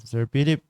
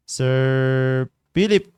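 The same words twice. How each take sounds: First: Said in the usual way. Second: Long, loud drawn-out call of the name. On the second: Real, not acted. Calling Sir Philip to join the Google Meet, drawn out and loud. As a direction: stretch the name out and call it across the room.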